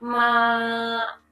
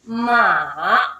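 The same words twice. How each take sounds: First: The pitch stays high and level. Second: The pitch falls low, then rises again. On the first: It means mother. "First tone मतलब सीधा होगा, हाई, एकदम सीधा पिच पे रहना होगा" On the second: It means horse. "पहले वो एक पिच पे होता है, फिर नीचे गिरता है, फिर ऊपर जाता है"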